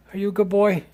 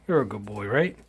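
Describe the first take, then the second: First: High sing-song pet voice. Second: Said in the usual way. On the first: Real, not acted. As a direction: coo at the dog, pitch way up. Praising the dog.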